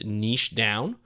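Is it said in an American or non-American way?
non-American. It is said in a non-American way.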